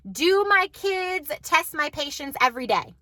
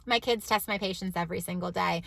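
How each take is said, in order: First: Slow teasing question, stress on my; slow rhetorical question. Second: Softer, lower, a dry confession; quiet flat admission. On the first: Mom asks viewers teasingly if kids test her, slow and playful. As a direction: ask it slow and playful, leaning on my. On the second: Mom quietly admits to viewers kids test her daily, deadpan and low. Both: Shown as a demonstration. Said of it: "We'll say that".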